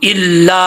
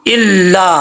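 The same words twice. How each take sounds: The two takes are said the same way.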